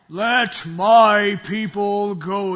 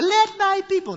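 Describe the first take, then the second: First: It is said in a deep voice. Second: It is said in a light voice.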